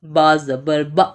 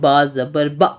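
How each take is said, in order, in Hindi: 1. आख़िरी स्वर झटके के साथ काटा गया है। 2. आख़िरी स्वर झटके के साथ काटा गया है।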